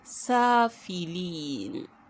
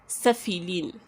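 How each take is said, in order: First: The vowel is elongated for two counts. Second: The vowel is held briefly, with no elongation. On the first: "because this mud is here, it is elongated for two harakat" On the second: "If this mud isn't there, we would just say safilin"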